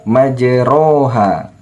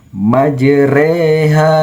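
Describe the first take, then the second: First: The vowel after r sounds like a. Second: The vowel after r sounds like e. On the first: The speaker calls it wrong. "bukan majroha" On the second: The speaker calls it right. "sehingga dibaca majreha"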